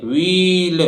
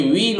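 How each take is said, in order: First: व्हील drawn out with the h wrongly sounded; stretched "wheel", h not silent; wrong pronunciation. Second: व्हील with a silent h; plain w opening व्हील, "weel"; correct pronunciation. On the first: Teacher demonstrating the mistaken व्हील, h sounded. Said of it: "नहीं, गलत उच्चारण है". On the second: Teacher correcting students on व्हील, h left silent. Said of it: "एच silent रहेगा". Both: Shown as a demonstration.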